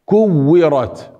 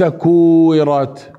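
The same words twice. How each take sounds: First: كورت with short u and doubled w; correct shadda. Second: كورت with drawn-out oo, single w; wrong long vowel. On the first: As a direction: press and hold the w in كورت. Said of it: "هنا الشدة". (كورت بتشديد الواو) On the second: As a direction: demonstrate كورت wrongly, oo stretched. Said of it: "ليس كورت". (كورت بالمد بدل الشدة) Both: Shown as a demonstration.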